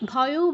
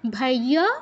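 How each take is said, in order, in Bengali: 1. শব্দটি o স্বরধ্বনি দিয়ে শেষ হয়। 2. শব্দটি a স্বরধ্বনি দিয়ে শেষ হয়।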